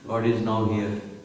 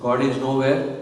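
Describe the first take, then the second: First: The last part splits into two separate words. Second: The last part runs together as one word. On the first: God is present here right now. "instead of saying nowhere, you say now here" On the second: God does not exist anywhere.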